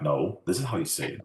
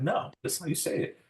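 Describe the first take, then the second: First: Adamant insistence. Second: Put-on high-pitched childish insistence, much higher; insistent. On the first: Retold or imitated. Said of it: "I was, like, adamant". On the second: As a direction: insist like the bossy oldest child. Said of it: "of course, I'm the oldest".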